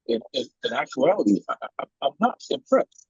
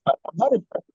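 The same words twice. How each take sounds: First: Choppy broken-up call audio; words repeating through a bad connection; buffering stutter. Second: Said in the usual way. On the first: Real, not acted. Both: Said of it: "you're breaking up".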